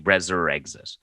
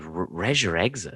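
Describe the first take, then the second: First: "Reser Exit" said as REZ-er-EX-it; corrected pronunciation. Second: "Reisure exit" said as REH-zhur exit; misread pronunciation. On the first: Shown as a demonstration. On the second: Retold or imitated. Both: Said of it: "it's not, it's actually".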